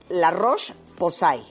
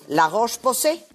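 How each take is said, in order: First: The name is pronounced with Spanish sounds. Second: The name is pronounced with French sounds. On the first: The speaker calls it wrong. "yo ayer lo pronuncié en español" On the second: The speaker calls it right. "las cosas como se deben de pronunciar"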